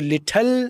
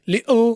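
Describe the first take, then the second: First: The t is fully and clearly released. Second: The t is skipped, leaving a gap. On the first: "ये टी blast हो गई, ये British side होगी" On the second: "ये टी skip हो गया, ये British side हो गया"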